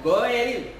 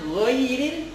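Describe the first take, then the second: First: The first vowel is a plain 'e'. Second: The first vowel glides like 'oi'. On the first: The speaker calls it wrong. "itu adalah kesalahan" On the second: The speaker calls it right.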